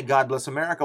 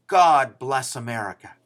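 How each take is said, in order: First: Said in the usual way. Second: Louder, proud declaration "God bless America"; cries out. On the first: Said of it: "We don't need to say". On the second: Retold or imitated. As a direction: call out "God bless America" like a patriotic cheer. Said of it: "A cat cries out".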